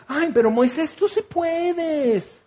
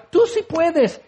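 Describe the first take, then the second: First: High, drawn-out cooing cheer; syrupy, stretched-out pep talk; mock gushing encouragement. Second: High-pitched quick pep; hammed-up high cheer; mock cheerleading. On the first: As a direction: coddle someone in parody. Mock encouragement God never says. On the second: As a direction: chirp encouragement in parody. Mock reply to struggling friend.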